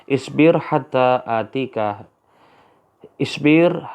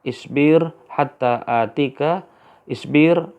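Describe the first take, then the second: The two takes are said the same way.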